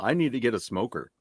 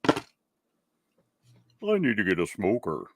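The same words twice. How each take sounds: First: It is said in his ordinary voice. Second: It is said in an altered, put-on voice.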